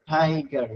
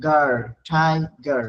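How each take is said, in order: First: Said in the usual way. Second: গার then ঠাইগার blended very slowly; slow blending. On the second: Shown as a demonstration. Teacher slowly blending syllables for students. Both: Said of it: "syllable division".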